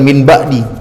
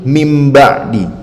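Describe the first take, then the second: First: The word ends with a clear n sound. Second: The word ends with a nasal m sound. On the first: The speaker calls it wrong. "bukan min ba'di" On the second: The speaker calls it right. "tetapi mim ba'di"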